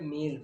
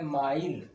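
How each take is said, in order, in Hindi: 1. यह शब्द हिंदी तरीके से बोला गया है, meel। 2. यह शब्द अंग्रेज़ी तरीके से बोला गया है, mile। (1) "मील पढ़ते हैं" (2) "ये है माइल"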